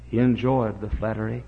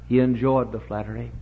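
Both takes have the same delivery.

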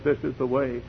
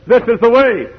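First: Softly spoken voice from behind; soft call. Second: High, loud voice from behind; raised preacher's call; insistent call. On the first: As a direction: say it quietly, as a first gentle prompting. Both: Acted.

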